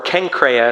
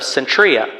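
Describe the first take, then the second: First: The name is said in its original form. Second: The name is said in an anglicized way.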